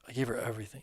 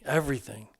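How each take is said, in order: First: Said in the usual way. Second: Repeated word pushed higher, louder; emotional emphasis. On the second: A narrator's reading. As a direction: break with feeling on it. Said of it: "my eyes starting to well up".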